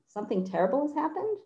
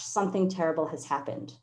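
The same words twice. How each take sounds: First: It is said as a question, rising. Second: It is said as an exclamation, falling.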